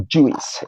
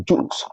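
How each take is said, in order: First: "juice" split into "joo-is"; common mispronunciation. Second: "juice" as one syllable; correct pronunciation. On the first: Teacher showing what people say in most cases, common mispronunciation. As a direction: sound the i in "juice" as a second vowel. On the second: Teacher modelling the word for learners, correct pronunciation. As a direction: say "juice" with a single unbroken vowel. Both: Shown as a demonstration. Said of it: "that people pronounce in most cases".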